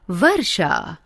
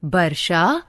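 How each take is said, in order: First: वर्षा said with a "v" sound, "varsha"; correct pronunciation. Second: वर्षा said with a "b" sound, "barsha"; wrong pronunciation. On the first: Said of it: "शुद्ध". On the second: Teacher showing students the mistaken form, with b for v. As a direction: start वर्षा with b, not v. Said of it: "अशुद्ध". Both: Shown as a demonstration.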